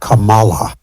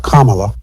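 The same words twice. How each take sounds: First: The first part does not sound like comma. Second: The first part sounds like the word comma. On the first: The name is mangled on purpose. The speaker calls it wrong. "They they purposely would mispronounce her name" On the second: This is the name's proper form. The speaker calls it right. "like you would pronounce Kama"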